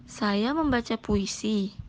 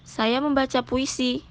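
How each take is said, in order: First: Slower, softer take stressing "membaca" in "Saya membaca puisi"; "Saya membaca puisi" read slowly with weight on "membaca"; different intonation. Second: "Saya membaca puisi" lifted a little higher as if asking; slightly raised questioning tune with "membaca" prominent; mild questioning read of "Saya membaca puisi"; question intonation. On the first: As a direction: lean on "membaca", slow and soft to shift the meaning. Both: Shown as a demonstration. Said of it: "bacalah dengan intonasi yang benar".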